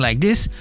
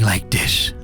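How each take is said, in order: First: The voice is at its normal everyday pitch. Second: The voice is toned down, deeper and darker. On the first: The speaker calls it wrong. "instead of talking like this" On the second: The speaker calls it right. "tone down a little bit my voice and kind of make it sound like darker"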